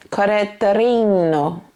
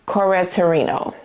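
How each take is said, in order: First: Put-on Italian accent with a tapped r; fake Italian accent. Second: Said in the usual way. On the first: Reviewer playfully retrying the Italian fragrance house's name, fake Italian accent. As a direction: draw it out in a mock Italian accent. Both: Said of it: "my fake Italian accent".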